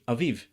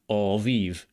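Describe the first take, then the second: First: Both vowels are kept short. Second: Both vowels are drawn out long. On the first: "in modern Hebrew, it would be aviv" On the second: "with a long A vowel and a long E vowel"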